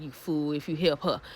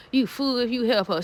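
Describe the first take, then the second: First: Low, much softer aside under the breath; hushed warning to the screen; muttered warning. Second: Said in the usual way. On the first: Real, not acted. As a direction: say "You fool if you help her" low and soft, as if to yourself.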